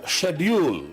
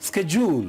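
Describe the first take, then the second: First: It is said with a British accent. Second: It is said with an American accent.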